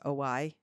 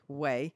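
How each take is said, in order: First: The name is said like 'oy'. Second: The name is said like 'way'. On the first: The speaker calls it wrong. "is that how you say it?" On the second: The speaker calls it right. "I think it's way"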